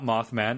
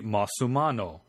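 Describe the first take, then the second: First: Plain English pronunciation with two syllables. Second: Japanese-style pronunciation with added vowels. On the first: "it's not Mothman" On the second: "It'd be Mothumano"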